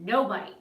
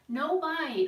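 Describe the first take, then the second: First: It is said in a firm, stern tone. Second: It is said in a soft, playful tone.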